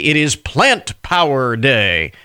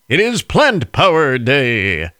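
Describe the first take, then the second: First: It is said in his normal speaking voice. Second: It is said in a booming announcer voice.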